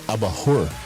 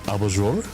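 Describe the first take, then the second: First: The J is said like an H. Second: The J is not said like an H. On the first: This is the Spanish pronunciation. "like in Spanish, it would be abajur. Because the, the, the J is uh, her" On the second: This is the Portuguese pronunciation. "Did I pronounce it right?"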